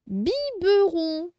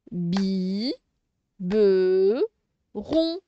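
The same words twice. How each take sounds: First: "Biberon" high and slow, as one word; slow, raised "Biberon" for the pupils; stretched word. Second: "bi, be, ron" in separate held beats; low "bi", low "be", lifted "ron"; syllable by syllable. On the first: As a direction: draw out "Biberon" with every syllable clear. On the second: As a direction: pause after each of "bi", "be", "ron". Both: Shown as a demonstration. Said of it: "on fait toujours les syllabes".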